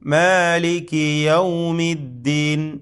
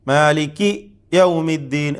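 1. Maliki ഒരു മുറിവുമില്ലാതെ നേരിട്ട് yawmi യിലേക്ക് ഒഴുകുന്നു. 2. ശബ്ദം maliki യ്ക്കും yawmi യ്ക്കും ഇടയിൽ മുറിയുന്നു. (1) "കാഫിൻ്റെ കസ്റ് ഉടനെ തന്നെ യാ ഉച്ചരിക്കുക" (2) "ശബ്ദം അങ്ങനെ മുറിച്ചെടുക്കാൻ പാടില്ല... അത് തെറ്റാണ്"

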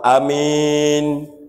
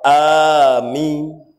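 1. Vokal pertama diucapkan pendek. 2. Vokal pertama dipanjangkan. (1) "Boleh kita nak panak ke Hamzah?" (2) "Boleh kita nak mempanyakan ke Hamzah?"

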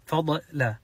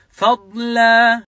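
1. يُطلق ḍād مع ارتداد يشبه الصدى. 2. يُمسك ḍād ويُمَدّ قبل L. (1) "كثير منهم يقلقلها" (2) "لازم تمسك الضاد الصح فيها استطالة بعدين اللام"

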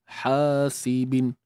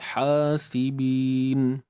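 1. Huruf vokal panjang dipendekkan menjadi satu harakat. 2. Huruf vokal panjang ditahan selama dua harakat. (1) "bunyi yang salah lah macam ni" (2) "hasibin dua"

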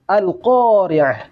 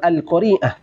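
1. Vokal setelah q itu panjang. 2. Vokal setelah r itu panjang. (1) "Qafnya yang panjang" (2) "bukan Rokasroh yang panjang"

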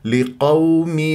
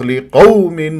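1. صوت W ناعم وسلس. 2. يُنطق صوت W بشدّة وقوة. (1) "لا تنبرها" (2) "تصرخ لقوم ... حولت الواو اللين ... إلى واو مشددة بنبرها"

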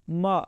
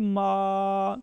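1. یہ چھوٹی ہے، کھینچی نہیں جاتی۔ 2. یہ لمبی ہے، کھینچ کر پڑھی جاتی ہے۔ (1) "اس کو ہم کھینچ نہیں رہے" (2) "جب یہ مدہ بن گیا اس کے ساتھ الف بھی لگ گیا"

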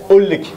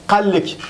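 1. Le premier son q est omis. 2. Le premier son q est prononcé. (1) "le qa devient a" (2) "L'autre vont dire qallik"

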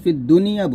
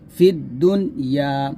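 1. n-এর পরে একটি ছোট i স্বরধ্বনি আছে। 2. n-এর পরে কোনো স্বরধ্বনি নেই, n বন্ধ। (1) "তবে আমরা পড়ি জের দিয়ে" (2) "এখানে নুনের উপরে আছে সাকিন"

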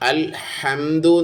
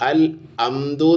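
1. "h" ശബ്ദം വ്യക്തമായി ഉച്ചരിക്കുന്നു. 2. "h" ശബ്ദം പൂർണ്ണമായി ഒഴിവാക്കുന്നു. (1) "അൽ ഹംദു എന്നാണ്" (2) "അൽ അംദു എന്നാവരുത്"

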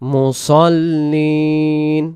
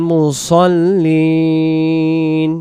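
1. s টি ভারী, জোরালো s উচ্চারণ। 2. s টি ভারী, জোরালো s উচ্চারণ।

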